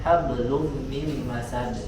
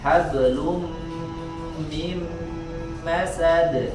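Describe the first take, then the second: First: The nasal hum is cut short and rushed. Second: The nasal hum is held long and full. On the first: The speaker calls it wrong. "jangan tergesa-gesa, jangan hablum mim masad ya" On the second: The speaker calls it right. "Mimma sambil disempurnakan sifat gunnahnya"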